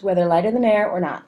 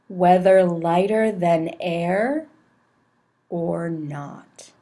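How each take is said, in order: First: It is read very fast. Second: It is read very slowly with long pauses. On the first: "that's clearly too fast" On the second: "Too many pauses, really slowly"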